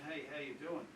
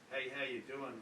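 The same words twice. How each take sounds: First: The greeting sounds sincere and genuine. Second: The greeting sounds hostile and unfriendly.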